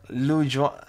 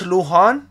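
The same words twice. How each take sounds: First: Lujan said with a hard English J, as in "jam"; first try at the name. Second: Lujan said as "loo-HAHN", the J breathed like an H; corrected Spanish name. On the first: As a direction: Lujan read the English way, with a J sound. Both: Shown as a demonstration. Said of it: "the J sounds H".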